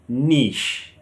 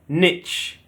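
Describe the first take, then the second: First: It is said with a British accent. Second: It is said with an American accent. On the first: "In British we say niche. The stress is on the E" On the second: "Americans say niche, where the stress is on the I"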